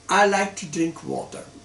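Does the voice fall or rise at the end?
fall. It is said as a statement, falling.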